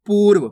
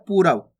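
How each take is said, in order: First: पूर्व tight as poorv with no vowel after r; correct reading. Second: पूर्व as poo-rav with a full ra; wrong reading with full ra. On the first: Teacher giving pupils the right reading, पूर्व as poorv. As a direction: say पूर्व as one quick syllable. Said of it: "अपन पढ़ कैसे रहे". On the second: Teacher showing pupils the wrong reading, पूर्व as poo-rav. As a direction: split पूर्व, voicing the ra. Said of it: "यहाँ पे रा का पूर्ण रूप से उच्चारण हो रहा है". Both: Shown as a demonstration.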